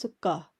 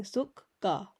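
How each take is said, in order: First: Said in the usual way. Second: Sukka broken in two, suk, then ka; split syllables. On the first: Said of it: "you're putting it together". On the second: Shown as a demonstration. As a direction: pull sukka apart as suk... ka. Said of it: "It's almost as though you're saying".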